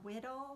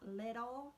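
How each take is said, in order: First: The word begins with a W sound. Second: The word begins with an L sound. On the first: The speaker calls it wrong. "say W instead of L" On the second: The speaker calls it right. "not little"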